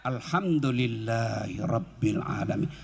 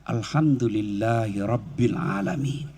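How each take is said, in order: First: Low, slow and soft; slow, lower, softer praise; slow heartfelt praise. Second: Low and slow, drawn out; slow, lower praise; slow grateful praise. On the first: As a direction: savour each word gratefully. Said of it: "ucapkan dengan lapang dada". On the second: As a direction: let it sink into the heart. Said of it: "supaya dia berkesan di hati". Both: Shown as a demonstration.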